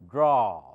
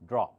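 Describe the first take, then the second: First: The vowel is long. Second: The vowel is short. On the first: The speaker calls it right. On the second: The speaker calls it wrong. "I don't say draw"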